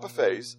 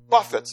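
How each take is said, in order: First: The stress is on the last syllable. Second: The stress is on the first syllable. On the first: Eating from a spread of food. "not buffets" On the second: Striking or disciplining one's own body. "Paul says that he buffets"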